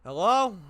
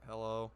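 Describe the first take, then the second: First: Sudden loud hello, pitched up. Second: Groggy just-woke-up hello; morning voice. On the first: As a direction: bark the greeting out loud. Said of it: "I didn't yell, but". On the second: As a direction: answer like you just woke up. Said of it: "I try to get in, like, my morning voice". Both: Retold or imitated.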